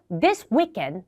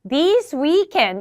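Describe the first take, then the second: First: Both words are said short and clipped. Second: Both words are said long and drawn out. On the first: "단음, 단음인 거죠. 둘 다 짧았잖아요" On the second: "둘 다 장음, 장음 이래도 감점 나오고"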